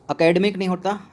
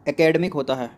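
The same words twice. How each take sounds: First: एकेडमिक opened on a short "a", pitched higher, rising; wrong form demo. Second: एकेडमिक opened on "e", falling; correct form demo. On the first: Teacher rejecting a wrong spelling, "a-kedmik" with rising tune. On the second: Teacher confirming the right spelling, "e-kedmik" with falling tune. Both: Shown as a demonstration.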